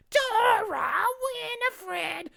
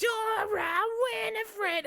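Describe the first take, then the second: First: High, slow, drawn-out witch voice. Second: High shrieking witch voice. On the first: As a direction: stretch it out like a cackling witch. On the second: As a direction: screech it like a witch. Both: Retold or imitated. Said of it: "a bit of the witch voice".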